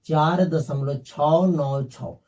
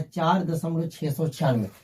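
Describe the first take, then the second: First: Slow, "छः नौ छः" each digit named separately after the point. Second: "चार दशमलव छः सौ छियानवे" read after the point as one whole number, six hundred ninety-six; wrong way to read it. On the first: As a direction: read "छः नौ छः" one digit at a time, slowly and clearly. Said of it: "आपको ऐसे पढ़ना". (दशमलव के बाद "छः नौ छः" एक-एक अंक धीरे-धीरे अलग पढ़ना) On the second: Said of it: "आप इसको ऐसे नहीं पढ़ना है". (दशमलव के बाद "छः सौ छियानवे" पूरी संख्या की तरह पढ़ना, गलत तरीका) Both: Shown as a demonstration.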